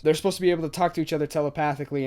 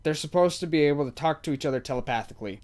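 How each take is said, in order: First: Rushed, fast rerun of the same line; fast repeat. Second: Said in the usual way. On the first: Real, not acted. Vlogger repeats the telepathy point to viewers, fast. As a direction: rattle it off quickly to drive the point home.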